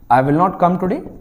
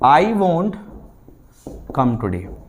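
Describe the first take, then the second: First: Will and not are said as two full words. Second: Will not is contracted into one syllable, won't. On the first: "this is the sentence" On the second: "contracted form"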